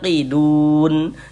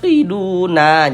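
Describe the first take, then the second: First: The word ends on a stopped n sound. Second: The word ends with an added a vowel. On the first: The speaker calls it right. "kita baca qidun" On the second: The speaker calls it wrong. "Jangan dibaca qiduna"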